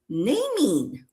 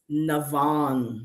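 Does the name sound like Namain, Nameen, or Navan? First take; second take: Nameen; Navan. First: The name has an m sound and ends in 'een'. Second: The name has a v sound and ends in 'an'. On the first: The speaker calls it wrong. "I've been thinking her name is" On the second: The speaker calls it right. "You know what her name is?"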